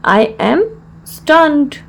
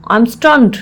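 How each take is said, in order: First: Measured, with a clear mid-phrase pause; broken into parts. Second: Said in the usual way. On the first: Shown as a demonstration. Teacher repeats the phrase for learners, in separated parts.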